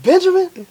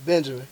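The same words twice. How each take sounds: First: High-pitched questioning echo; mock-surprised high query; surprised repeat. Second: Low, soft reply; small, subdued retold answer; meek answer. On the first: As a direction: repeat the name as if taken aback, pitch leaping up. Chef repeats the name, questioning. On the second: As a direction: give the name quietly, pitched down. Timid answer to the famous chef.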